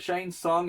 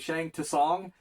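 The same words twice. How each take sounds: First: The second word starts without a T sound. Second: The second word starts with a T sound. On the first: The speaker calls it right. "is how they say it in the movie" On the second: The speaker calls it wrong. "it has a T in front. I didn't know how to pronounce it"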